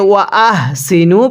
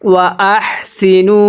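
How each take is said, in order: First: The h is said plainly, without light breath. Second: The h is said with light breath released. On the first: The speaker calls it wrong. "তাহলে কিন্তু পড়াটা সহি শুদ্ধ হবে না" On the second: The speaker calls it right. "মুখ দিয়ে আমাদেরকে হালকা বাতাস বের করে পড়তে হবে"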